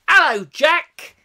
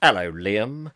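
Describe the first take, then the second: First: High, loud, drawn-out hello; playful greeting. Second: Low put-on voice for a hello; playful greeting. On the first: Pretend. Streamer greets a viewer's companion on request, high playful hello. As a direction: sing out a big hello, pitched way up. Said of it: "Could you say hello to Jack". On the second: Streamer greets a viewer's second companion on request, low playful hello. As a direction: drop into a deep, drawn-out greeting. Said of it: "say hello to Jack and Liam".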